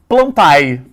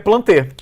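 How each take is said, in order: First: The ending is said as two separate vowels. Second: The ending is said as a single 'e' vowel. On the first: The speaker calls it wrong. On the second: The speaker calls it right.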